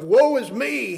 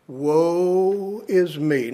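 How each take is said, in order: First: High, pitched-up cry of despair; anguished cry. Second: Slow, drawn-out mock lament. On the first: Retold or imitated. Preacher voicing Isaiah's cry of woe, high and anguished. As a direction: cry it out up high as a man undone. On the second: Preacher voicing Isaiah crying out, slow drawn lament. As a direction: stretch it into a slow groan of dread. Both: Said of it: "I cried out".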